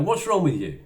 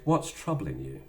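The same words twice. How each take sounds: First: Higher, louder accusing snap. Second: Caring. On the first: Retold or imitated. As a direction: challenge the partner sharply. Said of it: "and you go". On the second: Shown as a demonstration. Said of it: "you should have said".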